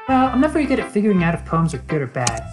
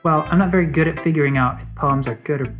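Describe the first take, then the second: First: It is said in Sayori's joyful character voice. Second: It is said in Suki's character voice.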